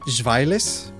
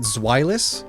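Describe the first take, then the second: First: The name is said with German-style sounds. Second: The name is said with English-style sounds. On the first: "Technically, it should be Zweilis, but like that's hard for English speakers" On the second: "Is it Zweilous?"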